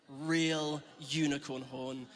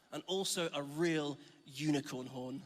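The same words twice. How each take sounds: First: Real drawn out slowly and stressed, the whole phrase slow. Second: Said in the usual way. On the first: Shown as a demonstration. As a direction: lean hard on Real to insist the horn is genuine. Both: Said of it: "Unicorns are real".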